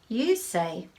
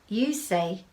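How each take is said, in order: Both takes have the same delivery.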